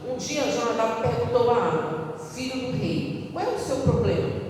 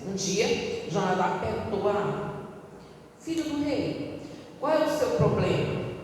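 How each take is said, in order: First: 'Filho do rei' is phrased with the narration. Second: 'Filho do rei' is phrased with the question.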